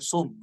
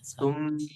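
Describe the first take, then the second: First: The word begins with an s sound. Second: The word begins with a th sound. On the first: The speaker calls it wrong. "Bukan sum. Bukan pakai sin" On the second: The speaker calls it right. "Tapi pakai sa"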